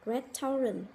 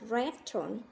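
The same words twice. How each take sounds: First: The word is said with three syllables. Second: The word is said with two syllables. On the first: The speaker calls it wrong. "các bạn hay từ đọc từ này là restaurant" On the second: The speaker calls it right. "người Mỹ đọc là restaurant và có hai âm tiết"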